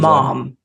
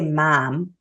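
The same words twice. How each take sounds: First: It has a non-Midwestern vowel, further back. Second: It has a Cleveland Midwestern vowel.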